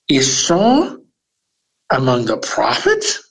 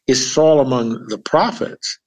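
First: It is asked with incredulous astonishment. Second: It is asked as a plain, neutral question.

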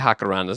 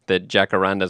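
First: The first sound is a breathy H. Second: The first sound is an English J.

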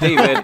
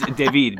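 First: The name is said with an English pronunciation. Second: The name is said with a French pronunciation. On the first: The speaker calls it wrong. "But not David" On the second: The speaker calls it right. "it's David because he's very French"

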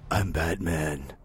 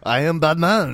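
First: It is said in a plain, normal accent. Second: It is said in a put-on French accent.

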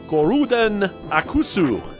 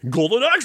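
First: It is said with Japanese pronunciation, extra vowels. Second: It is said with plain English pronunciation. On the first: "as they say in Japan" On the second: "Golden Axe, I say"

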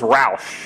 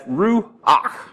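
First: The word ends without a guttural sound. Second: The word ends with a guttural sound. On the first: The speaker calls it wrong. "That's the way I used to pronounce it" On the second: The speaker calls it right. "it's got that guttural sound"

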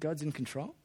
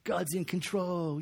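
First: It is said as a doubtful question. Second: It is said as a confident exclamation.

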